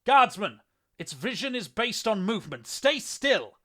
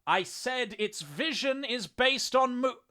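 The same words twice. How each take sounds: First: Loud, high-pitched battlefield shout; ringing shout full of authority; commanding bellow. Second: Loud, slow repeat with exasperation; exasperated shout, each word drawn out; exasperated measured patience. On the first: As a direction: bellow an urgent order to your comrade. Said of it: "bellowed to his comrade, his voice ringing out with authority". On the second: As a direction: spell it out slowly in a raised, high voice. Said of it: "a tinge of exasperation coloring his words". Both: A narrator's reading.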